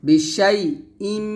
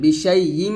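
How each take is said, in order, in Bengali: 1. 'im'-এর আগের হামজা ক্লিয়ার। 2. 'im'-এর আগের হামজা দুর্বল। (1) "হামজার উচ্চারণ ক্লিয়ার করতে হবে, বিশাই ইম এরকম" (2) "বিশাই ইম হবে না, ... আমরা অনেকে হামজার উচ্চারণটা ক্লিয়ার করি না"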